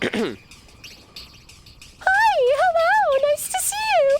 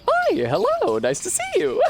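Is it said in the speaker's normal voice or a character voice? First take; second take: character; normal. First: It is said in an exaggerated put-on character voice. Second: It is said in his ordinary speaking voice.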